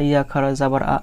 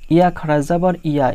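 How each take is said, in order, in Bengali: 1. শেষ অক্ষরটি একটি খালি স্বরধ্বনি দিয়ে শুরু হয়। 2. শেষ অক্ষরটি y ধ্বনি দিয়ে শুরু হয়। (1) "অনেকে কিন্তু ... এইভাবে পড়ে" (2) "কিন্তু আসলে"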